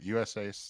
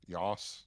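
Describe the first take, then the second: First: The name is said as separate letters. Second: The name is run together as one word. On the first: The speaker calls it right. "That's how" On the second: The speaker calls it wrong. "turning that into like one word earlier. They're calling it like sauce or something"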